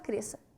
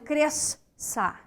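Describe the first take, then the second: First: The s and ç make one s sound. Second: The s and ç are sounded separately. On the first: The speaker calls it right. "Você fala cresça" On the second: The speaker calls it wrong. "A gente não fica dizendo cresça"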